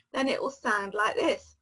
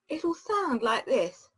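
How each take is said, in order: First: S in this said as a wet lateral slush; slushy sh for s. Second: S in this said with curled-back tongue; retroflex s. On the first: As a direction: let air spill out the sides on this. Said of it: "And that is a lateral S". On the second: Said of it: "if I curl it back". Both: Shown as a demonstration.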